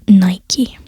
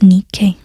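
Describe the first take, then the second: First: The name is pronounced the Roman way. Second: The name is pronounced the Greek way.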